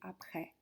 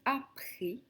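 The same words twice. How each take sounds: First: The last vowel is said open, like è. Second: The last vowel is said closed, like é. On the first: "c'est bien un accent grave qu'on a. Donc en réalité, on devrait plus prononcer après" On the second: "On dit après"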